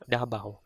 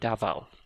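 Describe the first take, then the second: First: The middle consonant is a B sound. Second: The middle consonant is a V sound. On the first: The speaker calls it right. "we use the B sound. So Dabao" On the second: The speaker calls it wrong. "we don't say Davao because we don't have the V sound"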